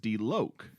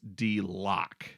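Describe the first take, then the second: First: The vowel is long, as in 'low'. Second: The vowel is short, as in 'lock'. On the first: The speaker calls it right. "but his name is [name], like [name]" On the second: The speaker calls it wrong. "we called one of the artists [name]"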